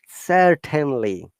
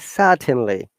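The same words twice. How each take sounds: First: The R sound is clearly pronounced. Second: The R sound is dropped. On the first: This is the American way of saying it. "American English is rhotic, where that they must be pronounced. So they will surely say certainly" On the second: This is the British way of saying it. "in British I P will say certainly. R is missing"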